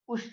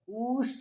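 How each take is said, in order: First: The u vowel is held for one beat. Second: The u vowel is held for two beats. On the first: "जब हम ह्रस्व उकार का बोलेंगे तो हो जाएगा उसकी ह्रस्व संज्ञा" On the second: "इसकी हो जाएगी दीर्घ संज्ञा"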